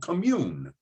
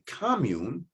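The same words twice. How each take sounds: First: It is pronounced the way the verb is. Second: It is pronounced the way the noun is. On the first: It means to share something closely with others. "If we use it as a verb, it is to commune. We say it that way" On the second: It means a shared place to live. "We talk about a commune as a place to live"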